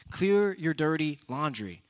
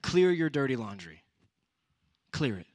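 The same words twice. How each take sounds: First: Slower, louder, every word "Clear your dirty laundry" pressed; slow louder restated command; slow, emphatic repeat. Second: Louder preaching command; louder emphatic command; emphatic exhortation. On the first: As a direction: drive it home slowly. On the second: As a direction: proclaim it loud to the youth. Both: Real, not acted. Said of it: "these three things".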